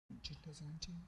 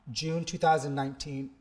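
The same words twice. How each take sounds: First: "nineteen" rising as a quiet question to himself; questioning rise. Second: Said in the usual way. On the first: Real, not acted. Unsure of the year, asks himself softly with a rising "nineteen". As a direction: check the date under the breath, ending up on "nineteen".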